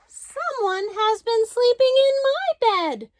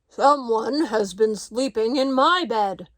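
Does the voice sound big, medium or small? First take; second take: small; big. First: It is said in a wee small voice. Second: It is said in a great big voice.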